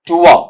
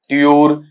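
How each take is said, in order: First: It sounds like 'too-uh', with no final r. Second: It sounds like 'tyoor', with a y glide. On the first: The speaker calls it right. "शुद्ध उच्चारण" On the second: The speaker calls it wrong. "दोनों ही गलत है"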